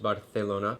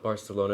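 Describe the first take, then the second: First: The c is said as a th sound. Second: The c is said as an s sound. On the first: The speaker calls it right. "the C is a T H" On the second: The speaker calls it wrong. "not Barcelona"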